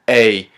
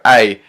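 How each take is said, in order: First: The vowel sounds like a clear 'ay'. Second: The vowel sounds close to 'eye'. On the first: The speaker calls it right. "pronounce it A" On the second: The speaker calls it wrong. "it sounds too much like I"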